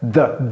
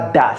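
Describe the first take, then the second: First: It starts with a soft 'th' sound. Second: It starts with a hard 'd' sound. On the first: The speaker calls it right. "Vous voyez la langue entre les dents" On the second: The speaker calls it wrong. "ne prononcez pas da, c'est pas da"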